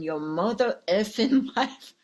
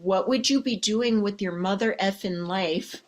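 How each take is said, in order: First: A light put-on tough-guy voice, breaking into a laugh on effing; half-laughing movie-star impression that cracks up midway; Samuel L. Jackson impression. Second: Said in the usual way. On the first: Shown as a demonstration. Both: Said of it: "Picture me, Samuel L. Jackson".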